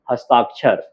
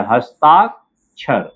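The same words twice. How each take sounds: First: Said in the usual way. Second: Slow हस्ताक्षर, broken before the final क्षर; drawn-out हस्ताक... क्षर for writing along; syllable by syllable. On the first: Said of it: "क्या हो गया?". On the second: Shown as a demonstration. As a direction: spell out हस्ताक्षर by sound, with a pause. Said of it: "देखिए".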